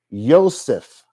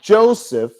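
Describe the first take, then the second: First: The name begins with a Y sound. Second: The name begins with a J sound. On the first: This is the older pronunciation before the letter J existed. The speaker calls it right. "it would have been pronounced Yosef" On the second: This is the modern pronunciation. The speaker calls it wrong. "not Joseph"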